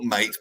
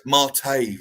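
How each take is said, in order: First: Mate said as one syllable; wrong pronunciation. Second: Mate in two syllables, mah-TAY; corrected pronunciation. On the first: Correcting the co-host, mate shown wrongly as one syllable. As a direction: say mate like the English word for friend. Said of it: "No, not mate". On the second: Correcting the co-host, Mate said properly as mah-tay. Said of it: "It's got an accent". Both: Shown as a demonstration.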